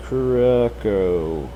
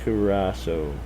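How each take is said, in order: First: Curacao sounded out very slowly; unsure pronunciation. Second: Curacao said a little slowly, as instructed; corrected pronunciation. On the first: Real, not acted. Streamer reading an unfamiliar island name from chat, unsure pronunciation. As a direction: stretch out Curacao, feeling for how it is said. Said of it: "Is that Curacao or Curacao?". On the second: Shown as a demonstration. Streamer repeating how you have to say it, corrected pronunciation. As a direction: carefully say Curacao as one word. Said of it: "You have to say it like".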